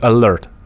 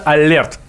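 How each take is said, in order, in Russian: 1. Слово произносится с английским акцентом. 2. Слово произносится с русским акцентом. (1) "правильно говорить «Алерт»" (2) "по-русски, с таким хорошим русским акцентом"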